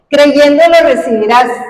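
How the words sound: It is said as one unbroken phrase. The speaker calls it right. "Una sola frase"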